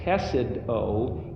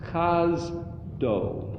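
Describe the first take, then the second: First: It is said in three syllables, che-sed-o. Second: It is said in two syllables, chaz-do. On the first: The speaker calls it wrong. "instead of saying chesed o" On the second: The speaker calls it right. "the syllables are shifted"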